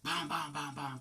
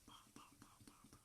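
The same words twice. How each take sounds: First: Voiced, ringing knock sounds; rhythmic spoken knocking, fully voiced; imitated knocking. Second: Very faint spoken knocks; whispery knock-knock sound effect; imitated knocking. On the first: Imitates knocking at the door again. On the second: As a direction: tap out soft knocks with the voice.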